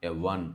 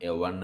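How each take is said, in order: Both takes have the same delivery.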